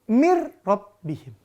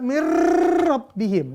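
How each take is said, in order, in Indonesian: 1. Bunyi r diucapkan biasa, tanpa berlebihan. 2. Bunyi r digetarkan secara berlebihan. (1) "mir tanpa dengung" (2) "nggak boleh dibaca mir rabbihim, nggak boleh. Itu mah kayak bukan ngaji ya. R, latihan R itu mah"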